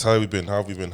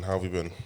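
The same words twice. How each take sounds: First: Loud cheerful greeting. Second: Said in the usual way. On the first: Acted. Dad's repeated greeting, loud.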